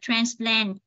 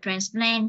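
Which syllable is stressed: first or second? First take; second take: first; second. First: The stress is on the first syllable. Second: The stress is on the second syllable. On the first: It is the noun. "Nếu nó là danh từ chúng ta đọc là transplant nhấn vần 1" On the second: It is the verb. "Nếu là động từ chúng ta đọc là transplant chúng ta nhấn vần 2"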